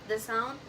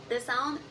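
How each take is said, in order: No difference in how they are said.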